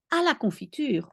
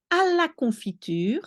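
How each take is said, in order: First: À la confiture said again, calmer; French phrase. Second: À la confiture with a high start; French phrase. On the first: Teacher repeating the feminine form. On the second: Teacher modelling the feminine form. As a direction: say à la confiture clearly. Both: Shown as a demonstration. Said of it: "à la when it's feminine".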